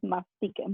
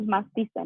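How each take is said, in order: First: The consonant before the ending sounds like k. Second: The consonant before the ending sounds like s. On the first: The speaker calls it right. "It's mastiquen" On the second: The speaker calls it wrong. "don't don't use masticen"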